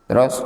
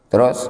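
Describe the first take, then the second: Both takes have the same delivery.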